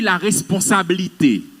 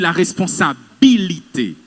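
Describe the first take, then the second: First: One syllable of the word is swallowed. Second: Every syllable of the word is clearly pronounced. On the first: The speaker calls it wrong. "vous avalez une syllabe dans un mot" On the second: The speaker calls it right. "On dit la responsabilité"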